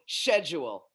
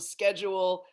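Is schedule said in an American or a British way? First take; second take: British; American. First: It is said in a British way. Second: It is said in an American way. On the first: "to schedule" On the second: "how the Brits get from schedule"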